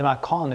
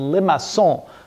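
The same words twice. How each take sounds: First: The word is pronounced with English sounds. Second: The word is pronounced with French sounds. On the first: "I think we can call it Limacon if you like it" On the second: "that's the French way of pronouncing the name"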